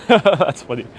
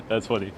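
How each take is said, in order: First: Real laughter running into the words; chuckle, then say it amused; laughing. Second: Soft, low tail of a laugh; subsiding laughter. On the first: Laughs at a viewer's joke. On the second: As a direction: let the chuckle die down into the words. Dying laughter at same joke. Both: Real, not acted.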